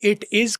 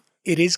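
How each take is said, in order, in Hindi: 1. t को साफ़ t की तरह बोला जाता है। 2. t को एक तेज़ r जैसी फ़्लैप की तरह बोला जाता है।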